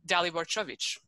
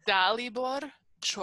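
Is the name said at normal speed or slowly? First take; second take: normal speed; slowly. First: The name is said at normal speed. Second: The name is said slowly and carefully.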